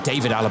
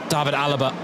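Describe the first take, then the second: First: The name is pronounced the English way. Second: The name is pronounced the German way. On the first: The speaker calls it right. "excuse me" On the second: The speaker calls it wrong. "It's just such instinct to pronounce it the German way"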